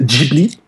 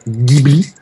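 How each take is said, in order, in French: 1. Le premier son est un G doux, comme j. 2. Le premier son est un G dur, comme dans go. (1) "le prononcent avec un G mou" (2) "ça se prononce avec un G dur"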